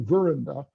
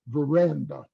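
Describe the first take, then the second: First: The main stress is not on the middle syllable. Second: The main stress is on the middle syllable. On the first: The speaker calls it wrong. "You don't say veranda" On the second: The speaker calls it right. "You say veranda"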